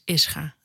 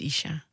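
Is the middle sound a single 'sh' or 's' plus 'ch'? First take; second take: s plus ch; sh. First: The middle is an s followed by ch. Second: The middle is a single sh sound. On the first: The speaker calls it right. "Het is Ischa. Het komt van Israël en Chaim" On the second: The speaker calls it wrong. "Het is niet Isha"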